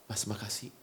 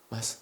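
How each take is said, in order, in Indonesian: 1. Diucapkan dengan hangat dan penuh perasaan tulus. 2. Diucapkan cepat dan datar, tanpa kehangatan. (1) "pengucapan Anda penuh makna itu, itu menjamah hati orang" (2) "Jadi bukan gini"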